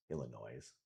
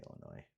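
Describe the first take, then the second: First: "Illinois" ending in an audible z, low and soft; final S sounded. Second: "Illinois" ending on oy, no z, very quiet; silent final S. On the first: Commentator weighing two pronunciations, "Illinois" with a voiced final S. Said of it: "Do you say Illinois or Illinois?". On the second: Commentator settling on own pronunciation, "Illinois" with silent S. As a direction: drop the last S of "Illinois", ending on oy. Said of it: "I think I say Illinois". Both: Shown as a demonstration.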